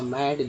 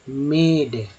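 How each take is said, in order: First: The vowel sounds like 'a' as in cat. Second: The vowel sounds like 'eh'. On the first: The speaker calls it right. "यहाँ पर ए का उच्चारण हो रहा है" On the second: The speaker calls it wrong. "इसको मेड"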